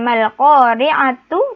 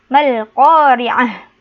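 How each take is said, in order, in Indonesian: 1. Kata itu berakhir dengan suku kata tu penuh. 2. Kata itu berakhir dengan bunyi h yang tidak terucap. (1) "Bukan mal qari'atu" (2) "tapi mal qari'ah, karena tak marbutoh berubah menjadi ha sukun"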